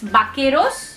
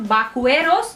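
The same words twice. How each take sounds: First: The u after q is silent, plain k. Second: The u after q is pronounced as w. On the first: The speaker calls it right. "it's vaqueros" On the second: The speaker calls it wrong. "it's not vaqueros"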